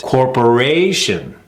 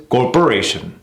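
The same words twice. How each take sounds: First: CORPORATION slow, with long RA; third-syllable stress. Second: CORPORATION short, RA not lengthened; mis-stressed corporation. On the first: Coach contrasting two rhythms, stressed third syllable. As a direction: stretch RA in CORPORATION. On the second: Coach showing the wrong rhythm, mis-stressed CORPORATION. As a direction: hurry through RA in CORPORATION. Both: Shown as a demonstration. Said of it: "See the difference?".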